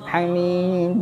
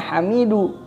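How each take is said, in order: First: The word ends on a bouncing d sound. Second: The word ends with a full u vowel. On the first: The reader stops at the end of the verse. "karena diwaqafkan jadi dibacanya hamid" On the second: This is the form as written, without stopping. "asalnya tulisannya hamidu"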